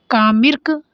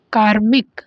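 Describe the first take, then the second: First: कामिर्क with the r after "mi"; misplaced r. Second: कार्मिक with the r before "mik"; correct r. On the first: Teacher reading out a misspelt option, misplaced r. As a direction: say कामिर्क as "kaa-mirk". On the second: Teacher giving the proper word after the misspelling, correct r. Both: Shown as a demonstration. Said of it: "तो ये वाला गलत है".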